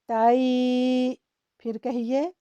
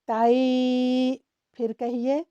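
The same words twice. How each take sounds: Both takes have the same delivery.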